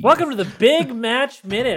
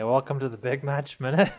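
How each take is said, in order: First: It is said with lively enthusiasm. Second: It is said flatly, without much energy.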